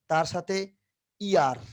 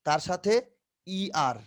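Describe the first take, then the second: No difference in how they are said.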